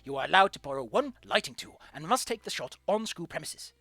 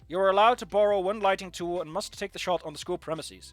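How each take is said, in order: First: It is read in an imitation of the teacher's voice. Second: It is read in the speaker's normal voice.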